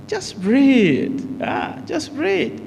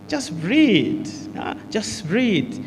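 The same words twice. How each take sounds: First: Comforting someone in pain. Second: Slow, soft reassurance, drawing out the breath; soothing an anxious person. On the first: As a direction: coax a hurting person through the pain, voice lifted high. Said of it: "If a person is in pain". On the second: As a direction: gently coax a nervous friend to breathe. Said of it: "If a person is anxious". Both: Shown as a demonstration.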